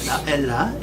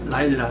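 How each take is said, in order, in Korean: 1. 가운데 음절은 'e' 소리가 나요. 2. 가운데 음절은 'ai' 소리가 나요. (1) "요를 좀 애로 발음하는데" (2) "옛날 교재 보면 그냥 다일라, 라일라"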